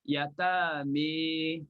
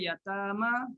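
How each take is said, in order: First: The final vowel is tilted toward an 'e' sound. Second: The final vowel is a plain open 'a'. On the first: "Jadi bacanya" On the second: "Kenapa yatama?"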